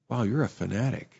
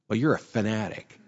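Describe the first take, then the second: First: It is said with an admiring, flattering tone. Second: It is said with a scornful, demeaning tone.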